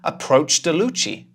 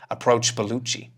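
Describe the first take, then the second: First: The b sound is dropped after the d. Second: The d sound is dropped before Bellucci. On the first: The speaker calls it wrong. "if we keep the d and throw the b away from Bellucci" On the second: The speaker calls it right. "We throw away the last sound in the first word"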